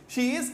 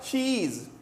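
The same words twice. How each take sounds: First: The two words are said separately and fully. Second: The two words are merged into one word.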